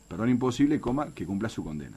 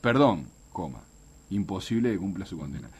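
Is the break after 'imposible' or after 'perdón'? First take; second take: after imposible; after perdón. First: The break comes after "imposible". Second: The break comes after "perdón".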